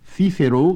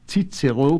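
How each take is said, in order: First: It uses the Spanish pronunciation. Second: It uses the German pronunciation. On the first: "to the Spaniard" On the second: "to the German"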